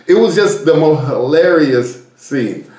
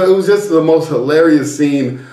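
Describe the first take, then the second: First: Slow, stretched stress on "hilarious"; drawn-out emphasis. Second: Said in the usual way. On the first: Real, not acted. Storyteller summing up the snorkeling mishap, "hilarious" drawn out slowly for emphasis. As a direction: draw out "hilarious" and land on "scene".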